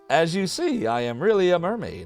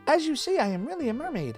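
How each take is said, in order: First: It is said in the speaker's normal voice. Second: It is said in a put-on mermaid's voice.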